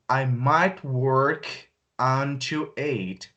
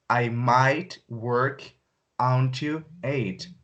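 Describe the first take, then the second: First: Very slow, split phrase; slow teaching voice; slow model sentence. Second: Very slow, stressing "might"; slow, low repeat; slower repeat. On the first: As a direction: say it in two slow halves. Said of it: "slow model take". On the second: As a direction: drag "might" out. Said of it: "repeat take". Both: Shown as a demonstration.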